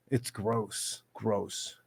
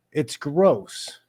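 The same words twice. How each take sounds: First: Softer, lower disgusted repeat; quiet. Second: Said in the usual way. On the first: Real, not acted. Repeating his disgust at announcers under his breath. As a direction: drop it low and soft in disgust.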